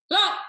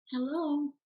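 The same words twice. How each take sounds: First: Short, loud phone pickup; abrupt, frustrated hello. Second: Higher, unhurried phone greeting; relaxed phone hello. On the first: Coach playing fed-up seller answering agents' calls, abrupt. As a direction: fire off the greeting like an irritated seller. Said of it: "who is abrupt, angry, frustrated". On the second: Coach mimicking how sellers don't answer, relaxed hello. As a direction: answer the phone pleasantly, no edge at all. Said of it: "They're not like that". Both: Acted.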